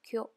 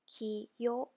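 First: It is said as one blended syllable. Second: It is said as two separate syllables. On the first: The speaker calls it right. "Kiyo becomes kyo" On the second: The speaker calls it wrong. "Kiyo becomes kyo"

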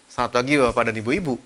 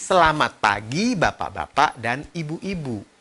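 First: Syllables are swallowed and run together. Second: Every syllable is clearly and fully pronounced. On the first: The listener must work hard to understand. The speaker calls it wrong. "Jadi kalimatnya bukan" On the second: Every word is easy to hear. The speaker calls it right. "Semuanya harus jelas"

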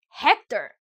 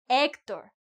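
First: The name is said with English pronunciation. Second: The name is said with Spanish pronunciation. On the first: This is how the name is said in English. The speaker calls it wrong. "not Hector, as Brad Pitt called his enemy" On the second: This is how the name is said in Spanish. The speaker calls it right. "my mother gave him that name in Spanish"

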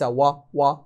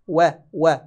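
First: The w sound is heavy and thickened. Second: The w sound is light, not thickened. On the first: The speaker calls it wrong. "مفخمة لا ينبغي أن نفخمها" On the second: The speaker calls it right. "وليس"

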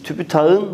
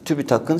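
First: The k before the suffix is softened. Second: The k before the suffix stays hard. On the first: The speaker calls it wrong. "Tübütakın şeklinde okumuyoruz sevgili arkadaşlar" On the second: The speaker calls it right. "Tübütakın şeklinde okuyoruz"

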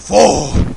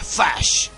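First: The word ends on a vowel sound. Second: The word ends with an 'sh' sound. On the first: The speaker calls it wrong. "la orca lo dice fo" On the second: The speaker calls it right. "en realidad creo que se pronuncia fash"

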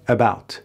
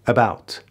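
The two takes are said the same way.

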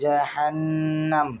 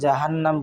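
First: The nasal sound is held long. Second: The nasal sound is kept short. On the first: The speaker calls it right. "আমরা বলি" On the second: The speaker calls it wrong. "আমরা কিন্তু বলি না"

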